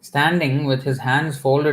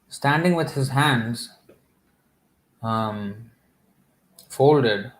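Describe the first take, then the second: First: There is no pause after 'hands'. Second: There is a pause after 'hands'. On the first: His hands are folded in supplication. The speaker calls it right. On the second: It sounds like he is just standing with his hands. The speaker calls it wrong.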